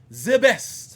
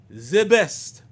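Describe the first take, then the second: First: It is said in an odd, mocking accent. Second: It is said in a normal accent.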